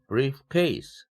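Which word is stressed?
case. The stress falls on the second word, case. It means a simple case. "이런 식으로 하면 간단한 사건을 얘기합니다"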